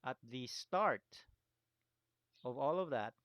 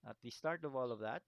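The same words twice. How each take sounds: First: Louder, stressing start; emphasized. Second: Said in the usual way. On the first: Shown as a demonstration. Teacher stressing the key moment for students, louder emphasis. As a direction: lean on the start to make the point. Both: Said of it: "I want to emphasize this".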